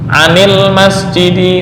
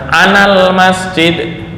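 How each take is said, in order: First: An is linked to the noun with an i vowel. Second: An is linked to the noun with an a vowel. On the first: The speaker calls it right. "untuk an kasroh" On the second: The speaker calls it wrong. "Nah ini salah, bukan anal masjid"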